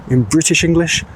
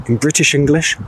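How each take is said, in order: Both takes have the same delivery.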